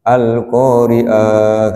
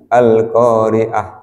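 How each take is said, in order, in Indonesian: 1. Vokalnya dipanjangkan. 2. Vokalnya dibaca dengan panjang normal.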